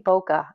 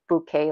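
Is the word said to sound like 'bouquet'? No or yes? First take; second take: no; yes. First: The word does not sound like 'bouquet'. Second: The word sounds like 'bouquet'. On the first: This is a personal habit. The speaker calls it wrong. "but I always say bokeh" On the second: This is the expected pronunciation. The speaker calls it right. "I know I'm supposed to say bouquet lights"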